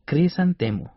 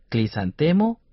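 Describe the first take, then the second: First: Said in the usual way. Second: Clisantemo with an L after the opening C; L for R mispronunciation. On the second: Shown as a demonstration. Teacher offers learners a choice of flower name, L for R. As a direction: say "clisantemo", L in place of R. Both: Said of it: "Se llama crisantemo".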